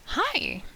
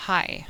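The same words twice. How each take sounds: First: Much higher, bubbly greeting; happy and bubbly. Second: Curt, cold greeting without the pitch lift; cold and bitchy. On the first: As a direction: greet them brightly with a big lift in pitch. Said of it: "one's happy and bubbly". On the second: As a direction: greet them coldly, like you can't be bothered. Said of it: "the other's kinda cold and bitchy". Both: Shown as a demonstration.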